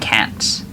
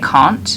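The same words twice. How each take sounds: First: It is said in an American accent. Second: It is said in a British accent. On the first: This is said at work to be understood more easily. "I always say can't in school, which I would never say in real life" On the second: This is how the speaker normally says it. "I would say can't"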